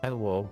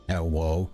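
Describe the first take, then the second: First: It is said in his natural voice. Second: It is said in a put-on voice.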